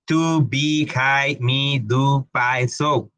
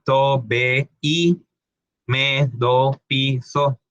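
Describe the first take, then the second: First: English vowels on "To, be, hi"; English pronunciation. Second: "to, be, i, me, do, pi, so" with pure Spanish vowels; spelled-as-written vowels in "to, be, i"; Spanish reading. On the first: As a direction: read each syllable the English way, "hi" rhyming with "pie". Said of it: "no en el inglés, no se pronuncia así". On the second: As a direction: read each as a Spanish syllable: toh, beh, ee, meh, doh, pee, soh. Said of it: "en español ... se pronunciarían". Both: Shown as a demonstration.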